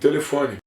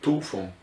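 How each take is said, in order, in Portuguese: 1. Toda vogal antes da sílaba tônica é pronunciada. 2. As vogais antes da sílaba tônica são apagadas. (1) "Pronunciamos todas as vogais que precedem a vogal tônica" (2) "os portugueses passaram a apagá-las dizendo tulfon"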